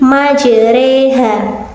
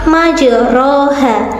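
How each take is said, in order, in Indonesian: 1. Vokal setelah r condong ke arah e. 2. Vokal setelah r terdengar seperti o penuh. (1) "jika dibaca imalah menjadi majreha" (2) "lafal majroha"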